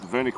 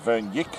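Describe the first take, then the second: First: No 'y' sound follows the n. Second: A 'y' sound follows the n. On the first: The speaker calls it right. "The Y is silent. just Vernick will do" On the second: The speaker calls it wrong. "It looks like Vernick or Vernyik, but no"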